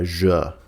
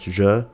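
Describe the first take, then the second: First: The J sound is drawn out and extended. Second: The J sound is short and clipped. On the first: The speaker calls it right. "they are sometimes extended ... It's more of a J" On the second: The speaker calls it wrong. "or just J"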